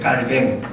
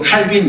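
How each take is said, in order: First: It is said French-style, ending in 'beng'. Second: It is said English-style, ending in 'bin'. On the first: This is the original French form of the name. "원래 프랑스 사람이니까 깔뱅" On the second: This is the English form of the name. "영어적인 그런 발음이고"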